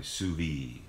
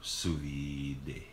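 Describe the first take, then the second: First: Low, offhand SOUS VIDE with the final d dropped; guessed French pronunciation. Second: Low, drawn-out SOUS VIDE with an extra syllable after the d; alternative French guess. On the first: Guessing for viewers how French say it, "sous vide" as soo-vee. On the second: Offering viewers another French guess, "sous vide" drawn out as soo-vee-day. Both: Shown as a demonstration. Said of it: "I don't know what they do it in French".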